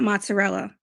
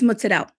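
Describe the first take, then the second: First: Mozzarella is said in the Americanized way. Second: Mozzarella is said in the Italian-American way. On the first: The speaker calls it wrong. "it's not mozzarella. That, like, makes me cringe" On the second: The speaker calls it right. "It's mozzarella"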